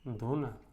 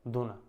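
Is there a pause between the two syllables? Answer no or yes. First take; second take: yes; no. First: It has a short pause between syllables. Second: It is said joined, with no pause. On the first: It is a request to give something. "थोड़ा सा विराम ले लिया" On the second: It names a leaf bowl for sweets. "एक बार जोड़ के बोल दिया, विराम नहीं लिया"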